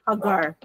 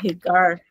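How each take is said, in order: First: The name is pronounced the Hebrew way. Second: The name is pronounced the American way. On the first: "in Hebrew, the name meaning Hagar is pronounced as Hagar" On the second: "more Americanized"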